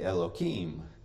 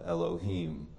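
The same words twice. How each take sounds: First: The middle consonant is a k sound. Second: The middle consonant is an h sound. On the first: The divine name is avoided out of reverence. "They will substitute H for K so that they don't use the name of God in vain" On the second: The divine name is said directly. "they won't say the name Elohim"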